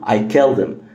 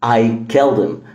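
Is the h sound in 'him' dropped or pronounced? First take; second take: dropped; dropped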